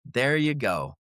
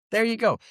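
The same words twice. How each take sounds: First: Said in the usual way. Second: Higher, louder mocking "There you go"; sarcastic repeat. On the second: Real, not acted. Host sneering at the vote list, higher sarcastic repeat. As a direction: fling it back, pitched up.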